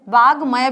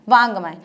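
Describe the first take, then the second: First: The consonant before 'maya' is a plain g. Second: The consonant before 'maya' is nasal. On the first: "वागमय भी बोल सकते हैं" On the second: "उसी वर्ग का पांचवा वर्ण बन जाएगा। जैसे ये वांगमय बन गया है"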